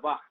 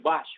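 First: The name ends with a throaty Spanish 'j' sound. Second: The name ends with a 'ch' as in chair. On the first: "pero se pronuncia Bach" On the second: "que se escribe Bach"

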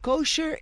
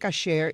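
First: The first vowel sounds like 'o'. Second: The first vowel sounds like 'a'. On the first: This is the commonly used non-Spanish form. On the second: This is the proper form in Spanish.

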